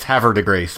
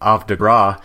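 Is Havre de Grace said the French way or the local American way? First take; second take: local American; French. First: It is said with a local American pronunciation. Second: It is said with a French pronunciation. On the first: This is how the town's residents say it. "that's what the people there call it" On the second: This is how it would be said in France. "if it was properly pronounced in France, it would be Havre de Grace"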